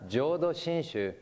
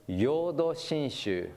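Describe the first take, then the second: First: The first word begins with a J sound. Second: The first word begins with a Y sound. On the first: The speaker calls it right. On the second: The speaker calls it wrong.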